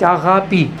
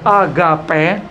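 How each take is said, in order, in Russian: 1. Слово заканчивается на гласный звук 'i'. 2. Слово заканчивается на гласный звук 'e'. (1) "по-гречески правильно говорить «агапи»" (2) "в русском языке говорят «агапе»"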